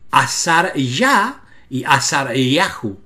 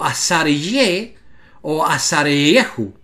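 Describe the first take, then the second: First: Slow "Azar Yah y Azar Yahu" with A after the Y; A vowel. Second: Slow "Azar Ye o Azar Yehu" with E after the Y; E vowel. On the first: Teacher giving the real name endings, slow A vowel in "Yah" and "Yahu". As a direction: draw out "Yah" and "Yahu" slowly, both on A. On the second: Teacher rejecting forms for viewers, slow E vowel in "Ye" and "Yehu". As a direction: draw out "Ye" and "Yehu" slowly, both on E. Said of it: "no dice Ye". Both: Shown as a demonstration.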